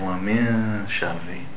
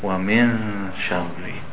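Both takes have the same delivery.

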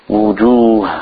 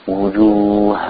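No difference in how they are said.

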